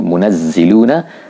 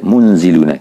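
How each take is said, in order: First: A 'naz' syllable with a doubled z sound. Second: No 'naz' syllable, and a single z sound. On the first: "ada boleh dibaca munazziluna" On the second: "ada boleh dibaca munziluna"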